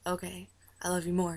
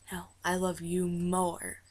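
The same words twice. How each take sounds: First: Said in the usual way. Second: Slow, weighted "I love you more"; insistent retort. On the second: Retold or imitated. Star out-loving a fan, slow insistent "I love you more". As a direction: draw out each word of "I love you more".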